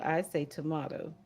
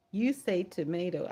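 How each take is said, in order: First: "tomato" as to-MAH-to; broad A in "tomato", to-MAH-to; "tomato" said tuh-MAH-toh. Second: "tomato" as to-MAY-to; long A in "tomato", to-MAY-to; "tomato" said tuh-MAY-toh. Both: Shown as a demonstration. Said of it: "You say tomato, I say tomato".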